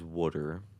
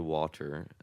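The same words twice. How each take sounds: First: It is said with a soft, flapped T. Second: It is said with a hard, crisp T. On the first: Imitates the father's Baltimore way of speaking. The speaker calls it wrong. "Our dad says water" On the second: The trained way that avoids the local accent. The speaker calls it right. "say it with a hard T like that"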